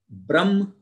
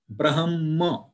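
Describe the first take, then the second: First: The m sound comes before the h. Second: The h sound comes before the m. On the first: The speaker calls it wrong. "it should not be Brahma" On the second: The speaker calls it right. "Ha first, then Ma"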